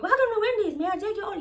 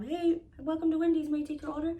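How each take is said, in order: First: Loud, high mock drive-thru attitude; hammed-up snippy fast-food greeting; catching attitude. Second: Lightly imitated drive-thru worker, higher pitched; a higher customer-service greeting, mildly put on; light impression of an intercom greeting; drive-thru greeter. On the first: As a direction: imitate an impatient worker repeating the greeting, much higher and louder. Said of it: "she catching attitude". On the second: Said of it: "lady starts speaking on the intercom".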